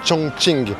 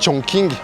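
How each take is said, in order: First: It is said closer to the Chinese pronunciation. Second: It is read the way it looks in French. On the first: The speaker calls it right. "Donc c'est vraiment Chongqing" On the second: The speaker calls it wrong. "si vous dites Chongqing, les gens ne vont pas comprendre"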